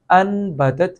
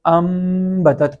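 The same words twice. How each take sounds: First: انبتت with a clear short n before the b; as written. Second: امبتت with a long humming m before the b; n turned to m. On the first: Teacher shows the reading to replace, distinct n in انبتت. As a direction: sound the n in انبتت plainly. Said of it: "یہاں پہ انبتت کی بجائے". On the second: Teacher shows correct iqlab, lingering m in امبتت. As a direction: hold the m of امبتت, then move on to batat. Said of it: "کی بجائے ہم اسے". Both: Shown as a demonstration.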